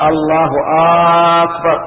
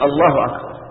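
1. تُمدّ الهمزة الأولى من أكبر. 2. لا يُمدّ أي صوت أكثر من المعتاد.

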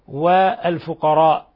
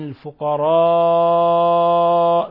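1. يُقصَر الحرف الذي قبل الهمزة الأخيرة ولا يُمَدّ. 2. يُمَدّ الحرف الذي قبل الهمزة الأخيرة مدًّا. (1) "من غير مد" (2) "ممدودة إلى من 4 إلى 6 حركات"

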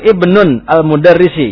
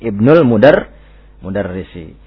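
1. Kata pertama berakhir dengan 'nun' sebelum 'al'. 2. Kata pertama langsung menyambung ke 'l'. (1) "Tidak boleh ibnunnya" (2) "Tapi ibnul mudarrisi"

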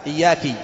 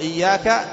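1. يأتي بعد الحرف الأخير صوت كسرة. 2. يأتي بعد الحرف الأخير صوت فتحة.

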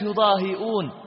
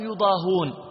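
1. في الكلمة همزة داخلها. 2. ليس في الكلمة همزة داخلها. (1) "قرئت يضاهئون" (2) "قرأ الإمام قالون يضاهون"

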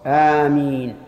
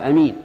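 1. الحركة الأولى طويلة. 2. الحركة الأولى قصيرة. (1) "والمد هو الصواب" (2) "قص الهمزة فيقال أمين، لكنها لغة ضعيفة"

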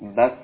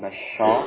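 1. Kata itu berakhir tajam pada konsonan. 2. Kata itu berakhir dengan bunyi vokal tambahan. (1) "bas, ya" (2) "Bukan basho"

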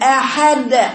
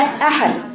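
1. القلقلة ممطوطة ومطوّلة. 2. القلقلة قصيرة وواضحة. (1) "مط صوتها وتطويله عن حد ... خطأ" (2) "هي أحد"

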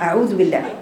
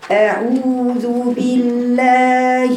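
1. المد يُقصر. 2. المد يُمَد حركتين. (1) "ما ينفعش اني اختلس المد كده" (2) "لازم المد كده اطاله ... حركتين"

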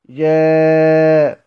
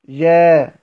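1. تُوسَّط الحركة التي قبل الهمزة. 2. تُقصَر الحركة التي قبل الهمزة. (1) "والتوسط" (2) "القصر"

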